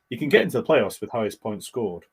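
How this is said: It is said in a confident, assured way.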